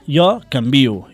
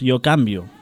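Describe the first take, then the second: First: The stress falls on the syllable 'vi'. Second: The stress falls on the syllable 'can'. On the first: The speaker calls it right. "hem de dir jo canvio" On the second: The speaker calls it wrong. "i no pas jo canvio"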